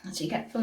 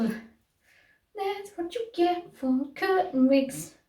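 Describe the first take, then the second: First: Said in the usual way. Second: High, slow sung line; sung punchline. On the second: Pretend. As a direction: sing the line like a jingle. Sung punchline about wigs.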